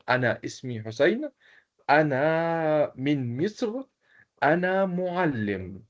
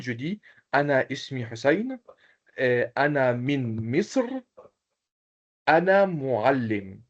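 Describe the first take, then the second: First: Slow model sentences. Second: Said in the usual way. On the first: Shown as a demonstration. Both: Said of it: "qui peut présenter comme moi".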